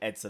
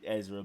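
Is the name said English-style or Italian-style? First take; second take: Italian-style; English-style. First: The name is said with an Italian-style pronunciation. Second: The name is said with a plain English pronunciation. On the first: "I like putting an Italian spin on it" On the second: "I think I pronounced it"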